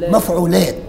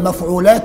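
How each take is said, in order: First: The word ends on a silent final t. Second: The final t is followed by a short vowel. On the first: "إلى مفعولات. اسمه وقف" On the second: "إسكان السابع المتحرك، تتحول مفعولات"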